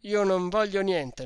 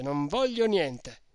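First: Loud firm refusal, stress on voglio; emphatic loud refusal; resolute refusal. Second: Slower, each word of "non voglio niente" spaced out; deliberate final refusal; slow emphatic repeat. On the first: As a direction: bark "Io non voglio niente" with voglio hit hard. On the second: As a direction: hammer it home slowly. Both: A narrator's reading. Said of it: "proferito con una tale risoluzione".

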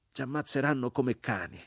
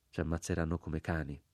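First: Higher, falling lament of the crucified man; grave e triste. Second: Repeated inwardly. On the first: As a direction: voice the doomed man's warning aloud. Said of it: "disse l'uomo crocifisso con voce grave e triste". (grave e triste, detto ad alta voce) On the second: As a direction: say it softly, as an inner thought. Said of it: "ripetei dentro di me". (ripetuto piano, dentro di sé) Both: A narrator's reading.

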